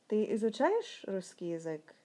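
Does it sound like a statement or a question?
question. It is said with question intonation.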